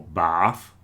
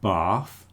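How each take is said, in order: First: It is said in a non-Southeast England accent. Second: It is said in a Southeast England accent. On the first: "not bath or bath" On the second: "with the Southeast England pronunciation"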